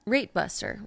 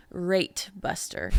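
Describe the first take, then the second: First: "rate buster" with the T of "rate" sharply released; crisp final T. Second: "Rate buster" slowly, T of "Rate" clearly popped; emphasized T. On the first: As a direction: land hard on the T in "rate". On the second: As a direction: spell out the T in "Rate" so it cannot be misheard. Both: Shown as a demonstration. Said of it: "I have to emphasize the T".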